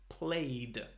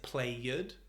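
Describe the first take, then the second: First: The ending sounds like a D. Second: The ending is an extra 'id' syllable. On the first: The speaker calls it right. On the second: The speaker calls it wrong.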